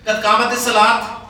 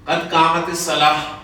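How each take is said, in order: First: The last word ends with a 't' sound. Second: The last word ends with an 'h' sound. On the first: The speaker calls it wrong. "अक्सर मैंने सुना है" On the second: The speaker calls it right. "ता की आवाज नहीं आनी चाहिए, हा की आवाज आनी चाहिए"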